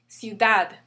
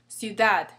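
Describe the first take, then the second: Both takes have the same delivery.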